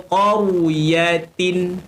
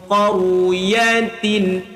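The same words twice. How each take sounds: The two takes are said the same way.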